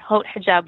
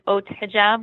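First: The h at the start of 'Haute' is pronounced. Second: The h at the start of 'Haute' is silent. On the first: This is the easier American way. "But Haute Hijab works. I think that's easier on the American tongue" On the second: This is the original French way. "The French way really is Haute Hijab without the H is silent in French"

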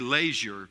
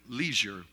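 First: It is said with a British pronunciation. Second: It is said with an American pronunciation.

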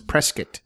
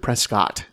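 First: The name is said the way locals say it. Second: The name is said the way outsiders say it. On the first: The speaker is from the area. The speaker calls it right. "It's Prescott" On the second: The speaker is not from the area. The speaker calls it wrong. "You can tell you're not from here if you pronounce it Prescott"

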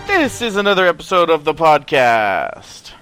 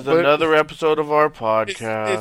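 First: It is said in an excited, upbeat voice. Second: It is said in a flat, depressed voice. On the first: "the excitement in your voice" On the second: "Would you rather me be the depressed one?"

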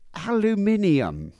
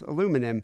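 First: It is said with a British pronunciation. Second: It is said with an American pronunciation. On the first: The speaker calls it wrong. "British people say aluminium" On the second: The speaker calls it right. "Spelled like it sounds"

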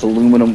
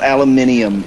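First: It is pronounced the American way. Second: It is pronounced the British way. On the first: The speaker calls it right. "It's aluminum foil" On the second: The speaker calls it wrong. "And it's not aluminium either"

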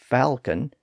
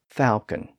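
First: The word is said with an L sound. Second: The word is said without an L sound. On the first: "with the L sound" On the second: "without the L sound"

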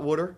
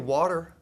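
First: It is said with a Baltimore accent. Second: It is said without a Baltimore accent.

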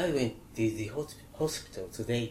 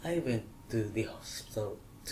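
First: It is said in standard English, 'today' with 'ay'. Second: It is Australian, 'today' sounding like 'to die'.

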